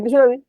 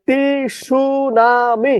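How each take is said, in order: First: টি সুনামি run together quickly as one word; joined-up pronunciation. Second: টি সুনামি drawn out slowly, higher pitch; distorted spelling pronunciation. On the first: Teacher giving what the syllables equal, joined-up pronunciation. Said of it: "সমান সমান কি?". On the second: Teacher chanting the spelling trick, slow distorted pronunciation. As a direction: stretch each syllable of টি সুনামি, T sounded. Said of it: "বিকৃত ভাবে উচ্চারণ করবেন". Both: Shown as a demonstration.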